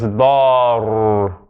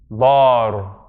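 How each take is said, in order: First: The final r is held and doubled. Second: The final r is short and single. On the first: The letter carries a shadda. The speaker calls it right. "But there's a shadda on it. So it's dar" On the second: The letter has no shadda. The speaker calls it wrong. "if it were this, it would be just Bar"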